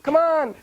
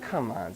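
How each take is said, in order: First: It is said loudly. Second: It is said softly.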